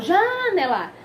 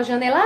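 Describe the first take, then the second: First: "janela" with JA drawn out and punched, rest dropping; wrong first-syllable stress. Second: "janela" with a long, punched final LA; wrong last-syllable stress. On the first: Teacher shows what she never says, stress on JA in "janela". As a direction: misplace the stress in "janela" onto a long JA. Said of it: "pronuncia com maior intensidade". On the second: Teacher shows what she never says, stress on LA in "janela". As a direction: misplace the stress in "janela" onto a held LA. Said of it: "eu não falo assim". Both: Shown as a demonstration.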